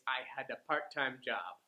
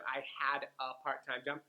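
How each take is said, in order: First: The unstressed words are reduced to schwa sounds. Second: The unstressed words are said fully. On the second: "So instead of"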